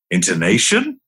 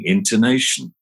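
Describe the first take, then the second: First: "Intonation?" with a clear questioning rise; rising intonation. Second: Said in the usual way. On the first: Shown as a demonstration. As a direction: echo "Intonation?" rising at the end. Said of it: "with a rising intonation". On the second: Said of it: "Repeat only their last word".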